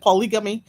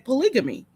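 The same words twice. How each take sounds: First: The word is said with a Haitian accent. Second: The word is said with a standard accent. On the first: "In the Haitian- in the Haitian accent" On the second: "proper in quotation marks"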